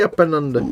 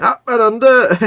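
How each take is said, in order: First: Said in the usual way. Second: High, loud "Up and under" with "under" falling; joking call of a rugby phrase; hammed-up catchphrase. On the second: Playful catchphrase, then laughs.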